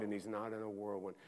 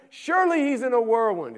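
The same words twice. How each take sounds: First: Said in the usual way. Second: High and loud, flung out; full-force preaching. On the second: Acted. Preacher insisting God must be in the whirlwind, loud and high. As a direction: proclaim it hard before the letdown.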